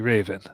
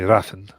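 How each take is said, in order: First: The middle consonant sounds like a v. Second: The middle consonant sounds like an f.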